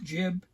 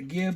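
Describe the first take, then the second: First: The word begins with a J sound. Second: The word begins with a hard G sound. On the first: This is the correct pronunciation. The speaker calls it right. "I think it's correctly pronounced jib" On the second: This is how some people say it. The speaker calls it wrong. "Some people pronounce it the gib"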